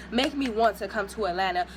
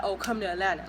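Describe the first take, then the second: First: Said in the usual way. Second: A careless "come to Atlanta", mocking his tone; mock lazy invite. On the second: Mocking the guy's low-effort invite, offhand and flat. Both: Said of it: "Don't be like".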